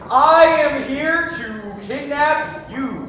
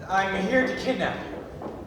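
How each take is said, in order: First: It is said loudly. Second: It is said fairly quietly.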